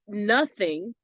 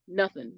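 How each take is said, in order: First: "nothing" slowly, with a full "thing" ending; slow, careful "nuth-thing"; both syllables full. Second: "nothing" with the ending cut short to "nuth'n"; casual, run-together "nuth'n"; clipped second syllable. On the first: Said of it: "but nothing, thing". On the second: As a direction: drop the "ing" of "nothing" to a quick "'n". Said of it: "you could say nothing". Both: Shown as a demonstration.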